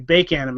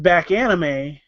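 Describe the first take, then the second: First: The first word sounds like 'bake'. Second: The first word sounds like 'back'. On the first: The speaker calls it right. "or excuse me" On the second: The speaker calls it wrong. "mispronouncing the con"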